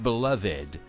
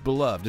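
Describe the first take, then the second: First: The word is said in an old-fashioned way. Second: The word is said in a plain modern way. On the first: The speaker calls it wrong. "It's not beloved" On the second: The speaker calls it right. "that's what it is in American English"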